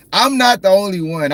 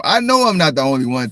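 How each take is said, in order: First: "not" punched higher and louder; stress on NOT. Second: Said in the usual way. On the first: Shown as a demonstration. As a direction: hit the word "not" hard, insisting.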